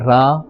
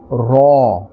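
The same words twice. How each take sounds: First: The letter is said with a thin, light sound. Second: The letter is said with a full, thick sound. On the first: The speaker calls it wrong. "We will not say Re or Ra" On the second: The speaker calls it right. "but a fuller and a thicker sound"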